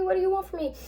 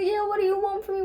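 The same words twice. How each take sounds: First: Desperate repeat. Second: Much higher, fast desperate plea; frantic panic. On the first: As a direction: beg the unseen voice, high and shaken. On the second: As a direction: cry it up the dark steps, high and rushed. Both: Retold or imitated. June running frantic up the steps.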